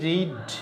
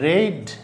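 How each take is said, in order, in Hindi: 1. स्वर 'ee' जैसा है। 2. स्वर 'eh' जैसा है। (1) "পড়ার ইংরেজি রিড" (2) "past form রেড, spelling কিন্তু একই"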